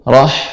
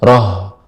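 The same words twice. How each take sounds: First: The h comes from the middle of the throat. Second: The h comes from low in the throat. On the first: The speaker calls it right. "ya bagian tengah tenggorokan" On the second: The speaker calls it wrong. "tidak roh. Kalau roh itu bagian bawah"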